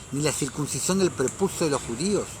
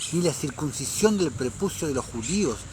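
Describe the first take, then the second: No difference in how they are said.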